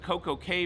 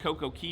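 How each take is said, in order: First: The last word sounds like 'kay', rhyming with day. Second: The last word sounds like 'key', rhyming with see. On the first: "Coco K versus Coco Key" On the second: "Coco K versus Coco Key"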